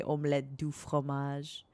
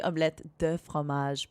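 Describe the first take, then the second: First: "du" with an "oo" vowel in "omelette du fromage"; the meme's "omelette du fromage", clear "doo" for "du"; meme pronunciation. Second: "de" with a short neutral vowel in "omelette de fromage"; everyday-pace "omelette de fromage", short unrounded "de"; correct French pronunciation. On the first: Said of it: "to just say omelette du fromage". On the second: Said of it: "It's actually omelette de fromage". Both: Shown as a demonstration.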